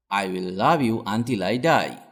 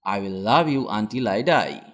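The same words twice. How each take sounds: The two takes are said the same way.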